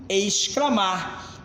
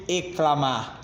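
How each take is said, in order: First: "exclamar" slowly, with the X heard before the C; X sounded in "exclamar". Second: "eclamar" said with no S sound before the C; X dropped in "eclamar". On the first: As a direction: draw out "exclamar", sounding both X and C. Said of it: "e sim exclamar". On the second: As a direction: say "eclamar", going straight from E to CL. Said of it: "eu não pronuncio eclamar". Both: Shown as a demonstration.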